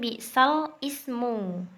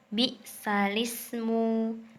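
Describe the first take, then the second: First: The l and ismu are said apart. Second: The l runs straight into ismu. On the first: This is how the phrase is written. "Tulisannya kan bi'sal ismu" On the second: This is how the phrase is recited. "Jadi bacanya bi'salismu"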